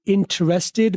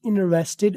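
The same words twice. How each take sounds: First: It is said with a British accent. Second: It is said with an American accent.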